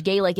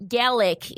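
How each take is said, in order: First: First syllable of "Gaelic" rhymes with "day"; Irish pronunciation. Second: "Gaelic" said GAL-ick, short a; first syllable of "Gaelic" rhymes with "pal"; Scottish pronunciation. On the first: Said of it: "Gaelic is the Irish". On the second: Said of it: "Gaelic is the Scottish". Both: Shown as a demonstration.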